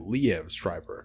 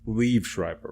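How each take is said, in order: First: The first name is said as two syllables. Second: The first name is said as one syllable. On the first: This is how others have recently said it. "it just seems like you wouldn't pronounce every single letter in his name" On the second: This is how the speaker habitually says it. "I say it Liev Schreiber"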